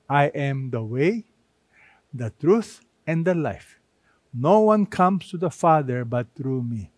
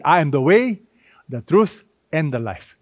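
First: Solemn, deliberate quote; emphatic. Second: Said in the usual way. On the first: Shown as a demonstration. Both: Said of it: "Jesus is very emphatic".

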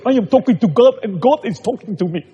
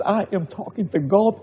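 First: Higher, louder, proud put-on voice; imitating the convert. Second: Said in the usual way. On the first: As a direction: show how the man now proudly says it. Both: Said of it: "and talk like this".

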